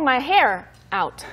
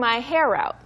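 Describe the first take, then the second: First: Hair and out are said with a break between. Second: Hair and out run together as one word. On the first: The speaker calls it wrong. "you wouldn't say" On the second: The speaker calls it right. "Like one word"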